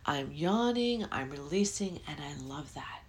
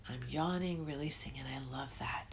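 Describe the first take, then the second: First: Said in the usual way. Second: Soft whispered affirmation. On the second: Shown as a demonstration. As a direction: repeat it again much softer, sliding into a whisper. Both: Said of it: "I'm gonna say".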